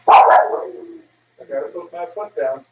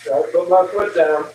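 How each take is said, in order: First: Slow, deliberate, each word set down; firm and slow. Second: Said in the usual way. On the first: Shown as a demonstration. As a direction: lean on foot and mean it.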